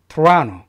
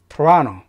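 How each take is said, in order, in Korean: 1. 가운데 음절에 강한 강세가 들어가요. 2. 가운데 음절에 강한 강세가 들어가요.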